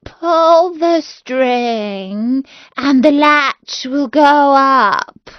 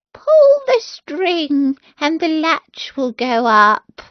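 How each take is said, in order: First: Wolf drawing it out slowly, faking grandma; the wolf trying to sound like grandmother, very slow; wolf luring the girl in, slow and put-on; wolf softening his voice. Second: Put-on higher, slower old grandmother; a sick grandmother calling from bed, slow and high; lightly voiced old grandmother, slow. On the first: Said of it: "softening his voice as much as he could".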